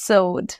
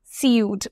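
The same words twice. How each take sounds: First: Sewed said as "sohd", one syllable; plain "oh" vowel in sewed, no "yoo" glide; correct pronunciation. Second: সিউড said as "see-yood"; spelling-based সিউড with a "yoo" glide; mistaken pronunciation. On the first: Teacher correcting a likely learner mistake, correct pronunciation. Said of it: "এটার উচ্চারণ হবে". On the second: Teacher voicing what learners might assume, mistaken pronunciation. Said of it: "but না". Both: Shown as a demonstration.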